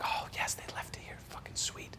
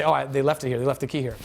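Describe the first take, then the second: First: Very soft whispered little celebration; hushed relief; relieved whisper. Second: Said in the usual way. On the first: Retold or imitated. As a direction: whisper it to yourself, pleased. Finding key while sneaking in.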